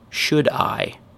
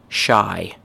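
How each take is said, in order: First: Both words are pronounced fully and separately. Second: The two words are squeezed into one syllable. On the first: "Full form" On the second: "most chewing gum-like"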